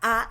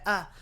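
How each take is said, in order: First: The vowel is said with the mouth wide open. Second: The vowel is said lazily with the mouth barely open. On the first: The speaker calls it right. "que sea A" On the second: The speaker calls it wrong. "y que no sea A"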